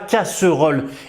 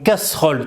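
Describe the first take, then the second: First: The middle vowel is pronounced, giving three syllables. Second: The middle vowel is dropped, giving two syllables. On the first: The speaker calls it wrong. "tu dis pas casserole" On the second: The speaker calls it right. "Le E ici, tu ne vas pas le prononcer"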